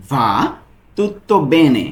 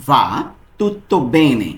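First: "va tutto bene" spelled out very slowly; slow down so learners catch each sound; slow, syllable by syllable. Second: Said in the usual way. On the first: Shown as a demonstration. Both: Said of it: "এর Italian কি হবে?".

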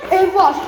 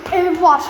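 First: Higher and louder excited call; excited shout. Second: Eager call, a bit louder; excited. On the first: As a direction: shout out the find, thrilled. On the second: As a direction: blurt out the find. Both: Real, not acted. Repeats discovery louder.

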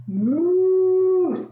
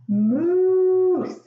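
First: Loud, very slow, long moose bellow; moose call. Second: Loud, very slow, drawn-out moose bellow; moose call. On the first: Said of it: "we'll say moose, like that". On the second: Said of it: "Can you do moose?". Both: Shown as a demonstration.

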